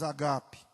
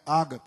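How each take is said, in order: First: The stress falls on a later syllable. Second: The stress falls on the first syllable. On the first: The speaker calls it right. "mas agape" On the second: The speaker calls it wrong. "Não é ágape"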